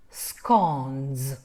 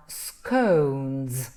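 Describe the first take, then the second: First: Scones with a short open o, like "skonz". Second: Scones with a long gliding oh, like "skohnz"; soft long O. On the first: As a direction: open the mouth on the vowel of scones, voiced nz ending. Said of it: "you have to open more the mouth". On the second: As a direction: round the vowel of scones to oh, voiced nz ending. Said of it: "O is very soft sound". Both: Shown as a demonstration.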